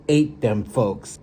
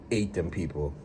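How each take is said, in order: First: Ate said slow and loud; stress on ate. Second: Said in the usual way. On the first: Real, not acted. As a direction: punch ate in ate them folks. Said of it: "repeats for emphasis". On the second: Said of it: "repeat said low".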